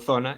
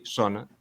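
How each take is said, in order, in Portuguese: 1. Começa com som de "th". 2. Começa com som de "s". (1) "eu digo" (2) "hai xente que di"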